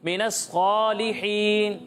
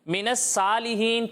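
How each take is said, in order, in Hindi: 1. s की आवाज़ भारी और मोटी है। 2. s की आवाज़ हल्की और पतली है। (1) "इसे पुर करके पढ़ेंगे" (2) "ये गलत है, सा ये बारीक पढ़ा"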